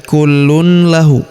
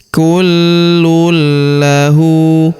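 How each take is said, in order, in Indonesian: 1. Bunyi n dibaca sebelum l. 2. Bunyi n melebur ke l yang dobel. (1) "Jadi bukan dibaca lagi kullun lahu" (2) "tanwinnya sudah menghilang"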